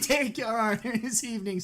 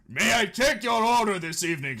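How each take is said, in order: First: It is said in a put-on Luigi-style voice. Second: It is said in a put-on Wario-style voice. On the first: The speaker calls it wrong. "this one gets to be Ouija" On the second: The speaker calls it right. "No, it's Wario"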